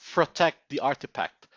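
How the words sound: It is said with a Filipino accent. The speaker calls it wrong. "the Filipino is trying to come out"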